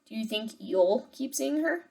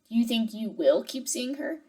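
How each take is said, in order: First: You will is shortened into one syllable, you'll. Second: Both words you will are said in full. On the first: The speaker calls it right. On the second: The speaker calls it wrong.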